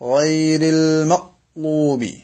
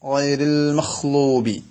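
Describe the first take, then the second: First: The consonant is a catch in the throat. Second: The consonant is a breathy kh sound. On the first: "ഒരു ഹംസയൊക്കെ ഉച്ചരിക്കുന്ന പോലെ ഒരു പിടുത്തം" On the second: "ചില ആളുകൾ ഖ ആയിട്ട്"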